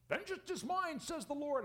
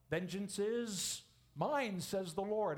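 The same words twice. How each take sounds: First: High, sarcastic scripture quote; mock people playing God; squeaky sarcastic vengeance quote. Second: Vengeance drawn out slowly; slow weighty scripture; slow solemn quote. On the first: Mocking self-appointed avenger. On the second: Acted. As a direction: read it slow and grave. First solemn reading.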